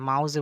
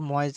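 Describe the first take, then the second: First: The first vowel sounds like 'ow'. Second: The first vowel sounds like 'oy'. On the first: The speaker calls it wrong. "মাউজে বলবেন না" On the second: The speaker calls it right. "এটা কিন্তু ময়েজে হবে"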